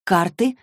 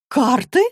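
First: Said in the usual way. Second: High, loud rising question on "Карты"; astonished echo question. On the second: A narrator's reading. Dorothea looks at the deck on the table, astonished. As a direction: echo "Карты" back in sharp surprise.

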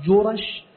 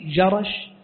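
First: جرش said "jurash", u after ج, a after ر; damma on jim. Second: جرش said "jarash", short a after ج and ر; fatha on jim. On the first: Teacher showing the Yemeni place name, جرش as "jurash". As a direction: round the first vowel of جرش to u: "ju-rash". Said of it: "فإن ضبط بضم الجيم وفتح الراء". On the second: Teacher showing the place in al-Sham, جرش as "jarash". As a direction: open the first vowel of جرش to a: "ja-rash". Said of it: "وإن ضبط بالفتح". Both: Shown as a demonstration.

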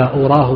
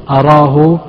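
First: "أراه" opening on u, uraahu; damma on hamza. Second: "أراه" opening on a, araahu; fatha on hamza. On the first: Teacher naming the rejected reading, "أراه" said uraahu with damma. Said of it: "بضمها". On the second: Teacher giving the preferred reading, "أراه" said araahu with fatha. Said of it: "بفتح الهمزة". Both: Shown as a demonstration.

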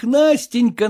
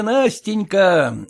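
First: Said in the usual way. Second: Tender. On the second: Acted. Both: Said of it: "сколь ты ... глупа есть".

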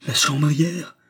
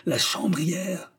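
First: Angry roar. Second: Indignant drawn-out cry. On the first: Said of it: "rugit Klutz, galvanisé par la colère". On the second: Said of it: "galvanisé par la colère". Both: A narrator's reading.

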